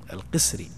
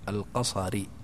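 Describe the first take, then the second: First: The first vowel is i, ending in -iyy. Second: The first vowel is a, ending in -ara. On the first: The speaker calls it right. "بقاف مكسورة ثم صاد مهملة ساكنة ثم راء مكسورة ثم ياء مشددة" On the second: The speaker calls it wrong. "بفتح القاف والراء مقصور"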